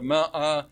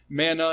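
First: "ma'ah" with no n, two open ah vowels; Hebrew pronunciation. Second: "manna" with a clear n in the middle; manna pronunciation. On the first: Teacher giving the Hebrew form, "ma'ah" without the n. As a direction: say "ma'ah" broken between the vowels, MA-AH. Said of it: "which would be Hebrew ma'ah". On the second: Teacher contrasting the word with the Hebrew, "manna" with an n. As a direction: say "manna" as two syllables, MAN-nah. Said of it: "why it's manna instead of ma'ah". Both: Shown as a demonstration.

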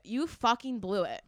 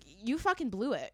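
First: Slower, weightier accusation; slow emphatic repeat. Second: Said in the usual way. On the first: Retold or imitated. Shopper tells the manager off, retold slow accusation. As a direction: stretch out "fucking blew it" for emphasis.

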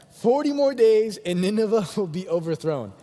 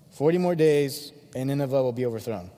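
First: Higher, louder, with a laugh inside; amused re-reading. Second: Half-hearted, unenthusiastic proclamation; worst sermon ever. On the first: Preacher rereading Jonah's terrible sermon, amused and emphatic. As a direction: repeat it, tickled by how bad it is. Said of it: "Let me read it one more time". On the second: Jonah preaching to Nineveh unwillingly, half-hearted. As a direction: act out a preacher who barely cares. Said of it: "preaches the worst sermon ever". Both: Acted.

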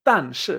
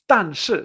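First: "tan shi" again, two falling tones; repeated model. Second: "tan shi" with both syllables falling like two shots; tan shi, two sharp drops; two dry falls. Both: Shown as a demonstration. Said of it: "como dos golpes secos".

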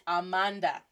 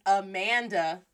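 First: "Amanda" with open ah vowels; Spanish pronunciation. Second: "Amanda" with the flat English a of apple; English pronunciation. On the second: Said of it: "in English". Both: Shown as a demonstration.

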